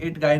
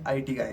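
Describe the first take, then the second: First: IT is said as the single word 'it'. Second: IT is spelled out as two letters, I-T. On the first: The speaker calls it wrong. "इट गाय नहीं है" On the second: The speaker calls it right. "ये आईटी guy है, ध्यान रखना"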